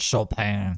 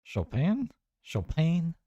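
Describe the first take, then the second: First: Chopin as show-pan, firm and falling; French pronunciation. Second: Chopin as show-pane, high and puzzled; questioning pronunciation. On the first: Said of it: "It'd be like French". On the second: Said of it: "There's no A in there". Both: Shown as a demonstration.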